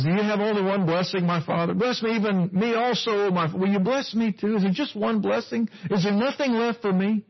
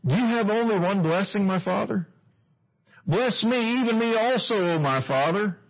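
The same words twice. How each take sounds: First: Higher, desperate begging retold; pleading Esau. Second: High, pleading cry to his father; pleading Esau. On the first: Preacher acting out Esau's plea to Isaac, pleading high. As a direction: plead like a son left empty-handed. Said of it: "if you notice the way he says it". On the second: Acted. Esau begging his father, pleading high. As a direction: beg for one more blessing.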